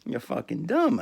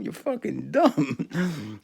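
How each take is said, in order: First: Said in the usual way. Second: You're fucking dumb drawn out very slowly; slow, mocking You're fucking dumb; stretched-out insult. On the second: Real, not acted.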